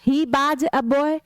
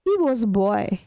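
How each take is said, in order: First: 'Was' is said like 'baaj', with a b sound. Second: 'Was' is said like 'woz', with a w sound. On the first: The speaker calls it wrong. "बाज नहीं होता" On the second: The speaker calls it right. "No, he वॉज boy"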